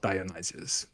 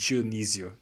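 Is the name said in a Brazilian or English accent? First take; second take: English; Brazilian. First: The name is said in an English accent. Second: The name is said in a Brazilian accent. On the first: This is the usual English form of the name. "not Dionysius" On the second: This is how the family says the name. "we pronounce that with the Brazilian accent"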